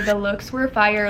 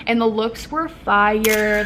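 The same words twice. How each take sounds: First: Said in the usual way. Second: Slow, savoring every word; drawn-out emphasis. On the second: Shown as a demonstration. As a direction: stretch it out like it's the best news ever.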